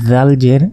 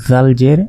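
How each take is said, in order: The two takes are said the same way.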